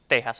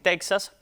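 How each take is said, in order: First: The word is said with a Spanish pronunciation. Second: The word is said with an English-style pronunciation. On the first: The speaker calls it right. "lo recomendado por las academias" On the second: The speaker calls it wrong. "una pronunciación anglicada"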